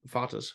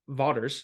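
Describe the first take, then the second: First: The name is said with German pronunciation. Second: The name is said without German pronunciation.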